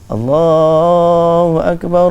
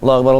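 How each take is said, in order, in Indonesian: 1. Dipanjangkan dengan suara yang merdu dan enak didengar. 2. Diucapkan dengan cepat dan datar, tanpa lagu. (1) "dia suara sedap" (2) "Orang komak iqamah macam mana?"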